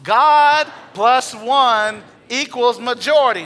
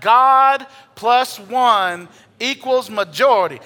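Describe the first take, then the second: First: Louder, slow, emphatic, higher and forceful; like you mean it. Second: Loud, slow congregational declaration, higher. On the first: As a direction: proclaim it as if you truly believe it. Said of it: "Now say it like you mean it". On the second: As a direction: call it out to your neighbour. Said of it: "say that out loud". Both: Shown as a demonstration.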